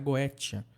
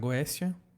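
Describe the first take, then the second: First: The middle consonant sounds like a t. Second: The middle consonant sounds like an s. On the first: "ou você pode pronunciar Goétia" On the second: "Você pode pronunciar Goécia"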